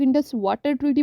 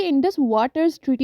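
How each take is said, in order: First: वाटर said without the final s, singular; common wrong version. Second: वाटर्स said with a clear final s, plural; correct pronunciation. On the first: Retold or imitated. Teacher imitating students' mistake, saying वाटर without the s. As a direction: drop the s from वाटर, the mistaken way: Indus वाटर treaty. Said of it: "तो वो गलत है". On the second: Shown as a demonstration. Teacher correcting students on the treaty name, stressing the s in वाटर्स. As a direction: make sure the s in वाटर्स is heard: Indus वाटर्स treaty. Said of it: "याद रखिएगा ये Indus वाटर्स treaty होता है".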